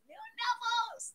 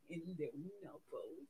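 First: Squeaky-high little voice; high-pitched coo. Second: Very low, hushed voice; tiny low coo. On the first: Streamer cooing over Nubbles, high and playful. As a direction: jump right up high, playfully. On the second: Streamer cooing over Nubbles, low and hushed. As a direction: drop right down, very soft and low. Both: Pretend. Cooing the toy's name two ways.

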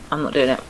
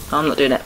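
The two takes are said the same way.

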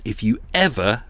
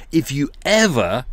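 First: Said in the usual way. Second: "ever" hit harder, as if in capitals; stress on ever. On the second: Shown as a demonstration. Reading a biscuit boss's email aloud, punching "ever". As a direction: lean on "ever" to show the capitals. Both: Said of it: "so he's written that in capitals".

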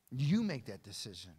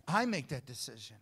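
First: You punched loud, the rest dropping away; stress on You. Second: I punched loud, the rest dropping away; stress on I. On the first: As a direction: hit the word You, then let it fall. Contrasts you with I. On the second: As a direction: hit the word I, then let it fall. Contrasts I with you. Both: Real, not acted.

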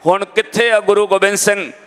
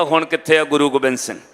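First: Mildly raised, imitated anguished question; retold tearful cry. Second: Settled, falling quote of his words; gentle reproof. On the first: Blind young man asks where his Guru is, imitated lament. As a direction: ask it as a lightly acted wail. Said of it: "ਉੱਚੀ ਉੱਚੀ ਰੋ ਕੇ ਕਹਿੰਦਾ". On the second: Retold or imitated. Old woman quotes the crying boy's question back, gently reproving. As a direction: repeat it back calmly, gently disapproving. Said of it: "ਏਦਾਂ ਨਹੀਂ ਕਹੀਦਾ".

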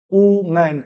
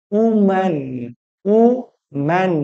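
First: Said in the usual way. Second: উম্যান broken slowly into উ and ম্যান; two-syllable split. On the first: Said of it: "দুটো syllable দুবার change". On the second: Shown as a demonstration. Teacher showing disyllables, উম্যান split as উ, ম্যান. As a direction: say উম্যান in two separate beats, উ, then ম্যান. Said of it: "গতির পরিবর্তন করতে হচ্ছে দুবার".

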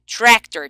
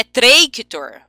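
First: Tractor said as trék-tor, open é; right vowel. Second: Tractor said as tréi-ki-tor, with ei; wrong vowel. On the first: Teacher showing the right way to say tractor. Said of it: "Tem um sonzinho de E". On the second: Teacher showing the wrong way to say tractor. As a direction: mispronounce tractor with an ei glide. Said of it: "Por que que aqui não é tractor". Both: Shown as a demonstration.

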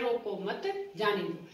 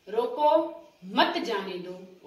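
First: रोको मत together, break, then जाने दो; pause after मत. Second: रोको, then a clear break before मत जाने दो; pause after रोको. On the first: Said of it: "इसको रोको मत". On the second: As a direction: stop after रोको, slowly add मत जाने दो. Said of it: "रोको के बाद अल्प विराम लगा हुआ है". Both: Shown as a demonstration.

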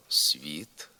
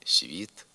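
First: «світ» with с hard before ві; as written. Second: «світ» with с palatalized before ві; softened с. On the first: Teacher reading the spelling, hard с in «світ». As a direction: say «світ» with an unsoftened с. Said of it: "Пишемо". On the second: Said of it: "а вимовляємо". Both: Shown as a demonstration.

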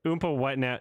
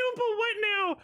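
First: Said in the usual way. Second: Very high-pitched incredulous squeal; squeaky mock astonishment; mock disbelief. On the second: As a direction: parrot the line in hammed-up disbelief. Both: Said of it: "He said".

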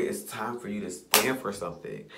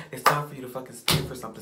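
First: Said in the usual way. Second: Faster and louder, hitting the word fucking; fired-up repeat. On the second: Real, not acted. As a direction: push it out harder. Repeat raised to a fierce push.

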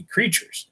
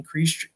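First: "creatures" with the plural s clearly added; corrected: "creatures". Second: Reads "creature" singular, no s at the end; the misread "creature", dropping the final s; slip: "creature". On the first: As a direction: fix it to "creatures", sounding the final s. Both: Real, not acted. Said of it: "excuse me".

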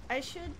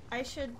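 No difference in how they are said.

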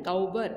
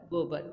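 First: गौबर said with an "au" sound, गौ-बर; wrong spelling read aloud. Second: गोबर said with a plain "o" sound, गो-बर; correct pronunciation. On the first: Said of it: "गौबर तो नहीं होता है". (गौबर को "औ" की आवाज़ से, गलत उच्चारण में) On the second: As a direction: correct it: गोबर with a clean "o" vowel. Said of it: "गोबर होता है". (गोबर को सही "ओ" की आवाज़ से) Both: Shown as a demonstration.

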